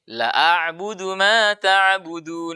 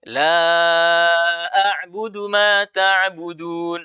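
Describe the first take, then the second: First: The vowel of 'la' is cut short. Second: The vowel of 'la' is held long. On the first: I truly worship what you worship. The speaker calls it wrong. "tapi dia kurangi menjadi" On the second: I do not worship what you worship. The speaker calls it right. "itu harus panjang"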